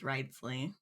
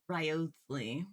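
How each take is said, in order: First: The O sound in the name is silent. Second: The O sound in the name is pronounced. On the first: The speaker calls it right. "apparently it's Wriothesley. The O is silent" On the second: The speaker calls it wrong. "I thought it was"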